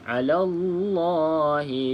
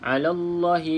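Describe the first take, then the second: First: The vowel in 'Allah' is held long. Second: The vowel in 'Allah' is held short. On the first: The speaker calls it right. "kena baca panjang" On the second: The speaker calls it wrong. "tak boleh baca alallahi lilladhi, alallahi lil. Ha, itu pendek"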